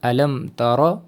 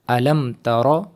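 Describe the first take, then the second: The two takes are said the same way.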